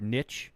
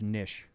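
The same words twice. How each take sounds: First: The vowel does not sound like fish. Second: The vowel sounds like the one in fish. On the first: The speaker calls it wrong. "people call me like niche or niche" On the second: The speaker calls it right. "it's actually just niche, like a fish"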